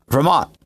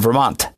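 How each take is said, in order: First: The t is dropped. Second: The t is fully pronounced.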